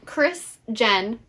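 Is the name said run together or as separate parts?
separate. The two parts are said slowly and separately. "Her name is Chris Jen"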